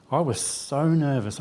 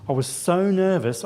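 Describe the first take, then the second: First: Drawn out slowly, dwelling on nervous. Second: Higher pitch, stress on nervous. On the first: Speaker recalling last year's nerves, slow and deliberate. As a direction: let the words linger, measured and slow. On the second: Telling the congregation how shaken he felt, raised and emphatic. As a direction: lift the voice and lean hard on nervous. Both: Real, not acted.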